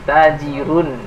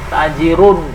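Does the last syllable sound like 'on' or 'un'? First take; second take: un; on. First: The last vowel sounds like an u. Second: The last vowel sounds like an o. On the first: The speaker calls it right. "harus u suaranya, jangan o" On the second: The speaker calls it wrong. "jangan gitu"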